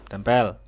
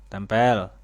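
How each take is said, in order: Both takes have the same delivery.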